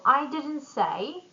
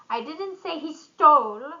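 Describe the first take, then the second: First: The stress falls on the word I. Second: The stress falls on the word stole. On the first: Someone else said it. "it would mean someone else did" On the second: It may have been borrowed. "maybe borrowed"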